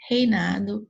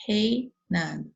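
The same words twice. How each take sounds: First: Said in the usual way. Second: "Reinado" slowly, rei held as one piece; slow, separated "Rei... nado"; split into syllables. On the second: Shown as a demonstration. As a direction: break "Reinado" after an unbroken rei. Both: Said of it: "não vai se separar nunca".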